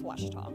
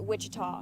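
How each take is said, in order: First: The first part sounds like 'Wash'. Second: The first part sounds like 'Wich'. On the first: This is the correct name. The speaker calls it right. "but really, it's" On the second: This is how most people say it. The speaker calls it wrong. "everybody pronounces it"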